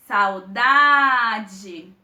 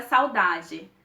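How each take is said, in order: First: "Saudade" with a long, loud "da"; prolonged stressed syllable. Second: Said in the usual way. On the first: Shown as a demonstration. Teacher demonstrating the tonic syllable, "Saudade" prolonged loudly on "da". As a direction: draw out and push the "da" in "Saudade". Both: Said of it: "é a gente prolongar a nossa pronúncia".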